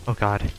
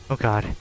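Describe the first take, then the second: No difference in how they are said.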